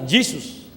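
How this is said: The name is said with an English pronunciation. "en inglés, suena Jesus"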